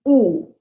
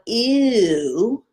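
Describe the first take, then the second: First: The vowel stays one steady sound. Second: The vowel glides into another sound. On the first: The speaker calls it right. "we want ooh. One sound, not multiple sounds" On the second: The speaker calls it wrong. "we don't want ew"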